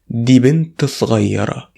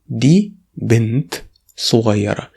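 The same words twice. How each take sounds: First: The sentence is said at normal speed, words linked. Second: The sentence is said slowly, word by word.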